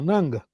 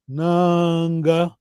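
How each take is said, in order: First: The first vowel is kept short. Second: The first vowel is held long. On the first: It means slave. "Sem vogal longa" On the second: It means maybe. "a pronúncia é tudo"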